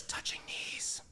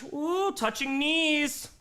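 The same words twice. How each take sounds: First: Hushed mock scandal; scandalized whisper. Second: Slow, higher mock scandalized ooh; drawn-out teasing ooh. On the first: Repeating chat's gossip, a hushed whisper. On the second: Streamer teasing chat about flirting, slow mock gasp. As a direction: stretch it out teasing the couple.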